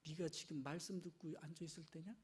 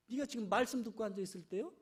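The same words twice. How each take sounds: First: Low, soft, grumbling reproach; muttered reproach. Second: Fast, sharp scolding; hurried scolding. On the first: Martha grumbling at Mary, low and soft. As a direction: grumble at the sister under your breath. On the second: Martha scolding Mary impatiently, fast. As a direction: rattle off the reproach impatiently. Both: Retold or imitated. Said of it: "막 화가 나는 거요".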